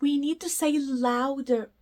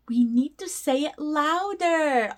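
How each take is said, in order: First: Said in the usual way. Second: Whispered, ironically asking for louder; hushed teasing whisper; playful whisper. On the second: Shown as a demonstration. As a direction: whisper it as a joke.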